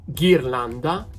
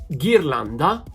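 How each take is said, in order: No difference in how they are said.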